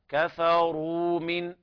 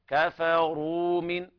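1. الـr ثقيلة والـw ممدودة. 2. الـr ثقيلة والـw ممدودة.

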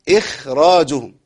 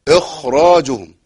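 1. صوت الخاء خفيف ورفيع. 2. صوت الخاء ثقيل ومليء. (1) "او بعض الناس يقراها اخراجهم" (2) "قرأ في هذه الكلمة بتفخيم الخاء"

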